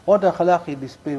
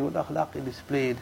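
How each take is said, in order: First: Said in the usual way. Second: The repeat drops lower and much softer, almost under the breath; softer, lower echo. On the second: Shown as a demonstration. Preacher quietly repeating the Prophet's akhlaq, hushed. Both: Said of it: "repeats the line twice".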